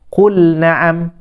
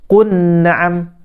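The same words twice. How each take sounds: No difference in how they are said.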